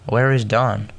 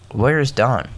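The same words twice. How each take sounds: First: The stress is on is. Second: The stress is on Dawn.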